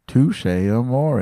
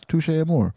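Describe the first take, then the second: First: The name is pronounced in a fancy, showy way. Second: The name is pronounced in a plain, ordinary way. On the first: The speaker sounds pretentious. "Who is this pretentious prick saying Touche Amore?" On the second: The speaker sounds ordinary. "It's Touche Amore"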